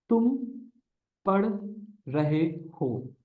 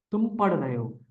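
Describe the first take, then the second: First: Very slow, each word set apart with pauses; slow dictation. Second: Said in the usual way. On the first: Shown as a demonstration. Teacher dictating a sentence to students, slow and broken up. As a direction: spell out तुम पढ़ रहे हो slowly for students to follow. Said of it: "teacher dictates sentence word by word". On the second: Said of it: "teacher repeats sentence normally".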